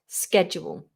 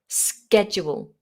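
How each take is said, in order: First: The word begins with an 'sk' sound. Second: The word begins with an 'sk' sound.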